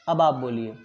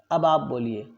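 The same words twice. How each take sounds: The two takes are said the same way.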